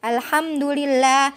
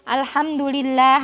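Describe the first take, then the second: First: The word ends with an i vowel. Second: The word ends with an i vowel.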